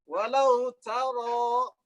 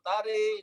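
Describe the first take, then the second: First: The r and following vowel sound heavy. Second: The vowel after r leans toward i. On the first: The speaker calls it right. "jika alif terletak sudah ro yang tidak dibaca imalah" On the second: The speaker calls it wrong.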